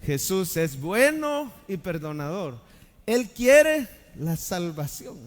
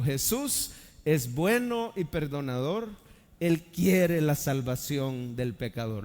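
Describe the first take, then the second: First: Louder group recital. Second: Slow recitation. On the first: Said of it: "Lo decimos juntos". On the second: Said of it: "la repita conmigo". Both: Shown as a demonstration.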